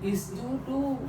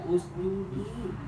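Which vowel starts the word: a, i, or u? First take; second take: i; u. First: The word begins with an i vowel. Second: The word begins with an u vowel. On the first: The speaker calls it wrong. "Jangan isjudu" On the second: The speaker calls it right. "Jangan ragu dibaca usjudu"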